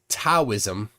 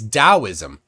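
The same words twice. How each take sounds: First: The word begins with a T sound. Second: The word begins with a D sound. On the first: The speaker calls it wrong. "It's not Taoism" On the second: The speaker calls it right. "it's Taoism. Now, somewhere a D showed up"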